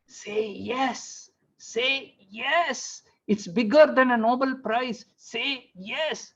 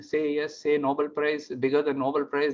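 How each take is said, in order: First: Urging wife. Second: Said in the usual way. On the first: Retold or imitated. Wife pressing husband to accept during his phone call, urging. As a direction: coax insistently in a high hushed voice.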